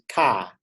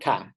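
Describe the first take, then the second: First: The vowel is long. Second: The vowel is short. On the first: The speaker calls it right. "actually means it's a longer vowel" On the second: The speaker calls it wrong. "it's not ka"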